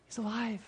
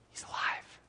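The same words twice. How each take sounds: First: Higher, soft, breaking into a laugh; delighted laughing exclamation; laughing joy. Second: Breathless whisper of disbelief; whispered, awed. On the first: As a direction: let the relief spill out in a laugh. Joyful repeat after whisper. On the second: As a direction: hush it like a secret too good to be true. Hushed reveal of Daniel's survival. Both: Acted.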